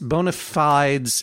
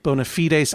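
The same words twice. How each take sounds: First: The phrase has a common anglicized pronunciation. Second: The phrase has a non-English, foreign-style pronunciation. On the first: Most people would understand it. The speaker calls it right. "Bona fides is common English pronunciation of that particular phrase" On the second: Most people would not understand it. The speaker calls it wrong. "I don't think people would understand what you were talking about"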